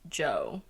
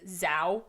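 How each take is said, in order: First: The name is said like English 'Joe'. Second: The name is said with an 'ow' vowel. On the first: "the Western pronunciation would probably be like Joe" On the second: "that's definitely not right"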